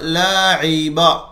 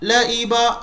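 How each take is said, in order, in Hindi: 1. बीच की ध्वनि गले वाली ain ध्वनि है। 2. बीच की ध्वनि सादा ee स्वर है। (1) "यहां आइन की प्रैक्टिस कराई जा रही है" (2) "ई नहीं कहेंगे आप, लाइबा गलत हो जाएगा"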